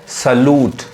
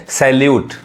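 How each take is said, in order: First: सलूट as "suh-loot", no y glide; corrected pronunciation. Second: सैल्यूट as "sal-yoot", with a y glide; common mispronunciation. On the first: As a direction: neutral first vowel, long oo in सलूट. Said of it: "इसका सही उच्चारण क्या है". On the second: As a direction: open "sai" start and "lyoot" ending in सैल्यूट. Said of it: "गलत उच्चारण है". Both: Shown as a demonstration.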